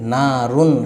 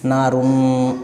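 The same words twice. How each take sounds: First: The final n is said quickly and clearly. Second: The final n is drawn out with a nasal hum. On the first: The speaker calls it right. "बल्कि जल्दी पढ़ेंगे" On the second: The speaker calls it wrong. "इस तरह से गुन्ना करके नहीं पढ़ेंगे"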